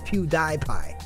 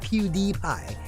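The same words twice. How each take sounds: First: The middle syllable sounds like 'die'. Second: The middle syllable sounds like 'dee'. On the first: The speaker calls it right. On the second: The speaker calls it wrong. "It's not"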